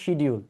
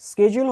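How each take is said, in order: First: The word is said in a Bangladeshi accent. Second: The word is said in an American accent. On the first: The speaker calls it wrong. "বাংলাদেশিরা বলি আমরা হচ্ছে শিডিউল" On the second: The speaker calls it right. "স্কেজুল হচ্ছে American accent"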